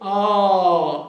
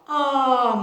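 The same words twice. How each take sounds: First: The vowel sounds dark and covered. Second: The vowel sounds bright and clear. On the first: "mais escuro" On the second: "mais claro"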